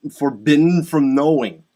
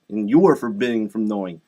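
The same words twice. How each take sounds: First: "forbidden" hit loud and hard; stress on forbidden. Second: "you" emphasized, the rest falling lower; stress on you. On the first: Addressing people of Iran, "forbidden" loudly stressed. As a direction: punch the word "forbidden". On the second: Addressing people of Iran, "you" stressed. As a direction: lean on "you", then let "forbidden from knowing" drop. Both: Real, not acted. Same words repeated with shifted stress.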